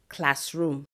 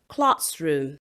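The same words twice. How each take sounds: First: The stress is on the second syllable. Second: The stress is on the first syllable. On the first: The speaker calls it wrong. "They would usually say" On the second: The speaker calls it right. "The first syllable is stressed and not the second syllable"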